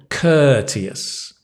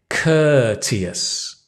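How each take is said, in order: Both takes have the same delivery.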